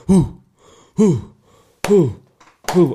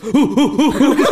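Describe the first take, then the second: First: Evenly spaced, loud "hoo"; short chanted hoots with long gaps; Viking clap chant. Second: Rapid, high, loud hoots; mistimed Viking chant. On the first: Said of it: "but he, he goes". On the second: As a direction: hoot far too fast, missing the rhythm. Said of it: "didn't have a clue about the timing". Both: Retold or imitated.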